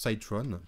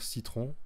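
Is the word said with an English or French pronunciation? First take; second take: English; French. First: The word is pronounced with an English accent. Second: The word is pronounced the French way. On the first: The speaker calls it right. "on prononce Citron" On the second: The speaker calls it wrong. "ceux qui n'ont pas l'accent anglais vont dire citron"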